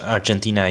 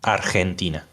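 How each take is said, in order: First: It is pronounced the English way. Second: It is pronounced the Spanish way.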